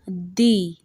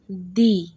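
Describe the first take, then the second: Both takes have the same delivery.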